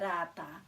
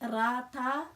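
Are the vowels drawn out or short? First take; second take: short; drawn out. First: The vowels are shorter and less emphasized. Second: The vowels are drawn out and emphasized. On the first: "You could say rata" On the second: "not probably as long as I'm sounding it. I'm making it a little bit kind of more emphasized"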